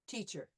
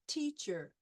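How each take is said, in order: First: It is said smoothly at normal speed. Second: It is said slowly, syllable by syllable. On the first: "at conversation speed" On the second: "by syllables"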